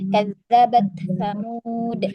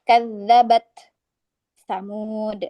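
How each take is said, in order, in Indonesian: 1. Kata-katanya langsung berlanjut tanpa jeda. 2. Ada jeda panjang setelah kadzabat. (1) "tapi langsung" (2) "kita tidak boleh memotong terlalu lama. Tidak boleh misalnya seperti"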